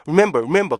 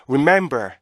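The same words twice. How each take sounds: First: "remember" quick and squashed, weak R; rhythmless REMEMBER. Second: "remember" with a held middle beat; measured rip-MEM-ber for "remember"; correct REMEMBER rhythm. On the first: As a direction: mimic a learner's hurried "remember". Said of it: "R 발음도 제대로 안 돼요". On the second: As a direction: stretch "mem" in "remember", then fall. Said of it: "이렇게 읽어야 되는데". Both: Shown as a demonstration.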